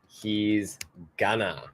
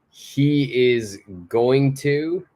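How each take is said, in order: First: The words are contracted and squeezed together. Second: Each word is said in full.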